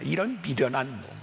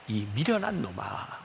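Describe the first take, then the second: First: It sounds harsh and scolding. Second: It sounds sorrowful and pitying. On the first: The speaker is rebuking the listeners. The speaker calls it wrong. "이렇게 꾸짖려고 하는 그런 의도가 아니라" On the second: The speaker feels sorry for the listeners. The speaker calls it right. "안타까움에서"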